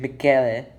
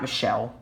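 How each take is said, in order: First: The name is pronounced the Italian way. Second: The name is pronounced the English way. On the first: "when people speak Italian, they pronounce his name Michele" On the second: "and not Michelle"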